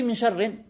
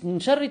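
First: The last word ends with an added n sound. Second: The last word ends in a short vowel. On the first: The speaker calls it wrong. "tu as rajouté min sharrin, tanwin" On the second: The speaker calls it right. "juste min sharri"

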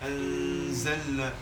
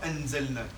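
First: The n is held with a long nasal hum. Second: The n is cut short with no nasal hum. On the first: The speaker calls it right. "On fait le nasalement et on retient le noun" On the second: The speaker calls it wrong. "on ne dit pas enzelna"

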